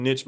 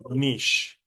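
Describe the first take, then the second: First: "niche" said as nitch, short i ending in ch; "niche" rhymes with itch; his usual pronunciation. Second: "niche" rhymes with quiche; proper pronunciation. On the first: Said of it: "I've been saying niche my whole life". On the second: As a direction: pronounce "niche" like "neesh". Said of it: "the proper way to pronounce it". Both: Shown as a demonstration.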